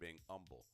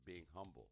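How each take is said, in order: First: Humble is said southern-style, without the h. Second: Humble is said with the h sound.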